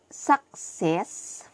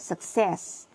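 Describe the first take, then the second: First: It is said with Nigerian English stress. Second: It is said with standard English stress. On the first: "the Nigerians say success" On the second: "for success"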